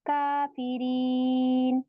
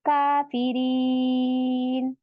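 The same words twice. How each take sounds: The two takes are said the same way.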